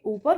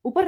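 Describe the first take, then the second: First: ऊपर with long opening oo; correct pronunciation. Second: ऊपर with short opening u; wrong pronunciation. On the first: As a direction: say ऊपर as oo-par. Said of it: "ऊपर होगा". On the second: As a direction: say ऊपर as u-par. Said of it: "ऊपर ना होके". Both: Shown as a demonstration.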